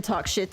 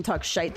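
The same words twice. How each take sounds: First: Said in the usual way. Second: "shite" with a long eye vowel; Scottish pronunciation. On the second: Shown as a demonstration. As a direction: say "shite", rhyming with kite. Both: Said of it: "talk shite the proper way".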